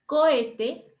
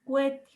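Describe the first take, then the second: First: Said in the usual way. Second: "cohete" shrunk to two syllables, starting "kwe"; hiatus made diphthong. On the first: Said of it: "O en vez de decir cohete". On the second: Shown as a demonstration. Teacher shows students the Mexican way of saying it, vowels merged into a diphthong. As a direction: say "cohete" as "cuete", O gliding into E. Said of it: "convertir los hiatos en diptongos".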